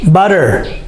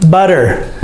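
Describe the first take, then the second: No difference in how they are said.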